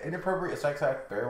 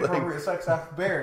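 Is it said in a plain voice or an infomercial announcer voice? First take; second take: plain voice; infomercial announcer. First: It is said in a plain speaking voice. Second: It is said like an infomercial announcer.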